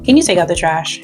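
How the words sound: The tone is neutral and calm. It is a plain request. "Here's neutral with no drama"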